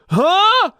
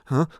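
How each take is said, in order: First: It gets louder and more pushed as it rises. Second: It gets softer and lighter as it rises. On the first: The speaker calls it wrong. "It's not that, which is what a lot of us do when we try to go higher" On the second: The speaker calls it right. "softer and lighter as it gets higher"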